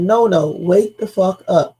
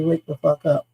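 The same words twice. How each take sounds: First: Slow, pressing, a touch of alarm; urgent quote. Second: Casual wake-up call. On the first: Caller on the sinking boat, slow and pressing. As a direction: lean on each word like it matters. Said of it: "No, they said". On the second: Coworker slacking off, told to wake up, offhand. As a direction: toss it off without urgency. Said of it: "somebody not doing their job and say". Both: Retold or imitated.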